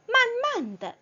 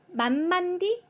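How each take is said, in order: First: The last syllable is a light toneless 'duh'. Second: The last syllable is a full 'dee' sound. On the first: The speaker calls it right. "성조 없이 가볍게 더" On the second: The speaker calls it wrong. "D가 아니에요"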